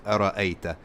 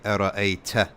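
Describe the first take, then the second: First: The t is crisp, without any hiss. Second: The t has a hissing, whistling sound. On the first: The speaker calls it right. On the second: The speaker calls it wrong.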